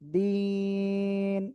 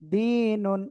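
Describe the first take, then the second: First: The word ends cut short without -un. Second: The word ends with the full -un ending. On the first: The reader stops at this word. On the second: The reader continues without stopping.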